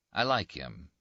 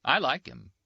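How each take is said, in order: First: Said in the usual way. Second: Higher, a bit louder, teasing; lightly voiced Rinaldi. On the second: Rinaldi says it of the priest, higher and teasing. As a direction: say it lightly, half mocking.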